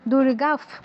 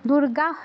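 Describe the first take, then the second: First: The word ends with a soft f sound. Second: The word ends with a breathy h sound. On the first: The speaker calls it right. "ফয় হসন্তর মতো উচ্চারণ হবে" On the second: The speaker calls it wrong. "দুর্গাহ নয়"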